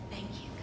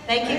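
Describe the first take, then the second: First: The words are whispered very softly. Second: The words are spoken loudly with full voice. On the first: "Let's just whisper together" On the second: "And now just lift it up. Just let it go"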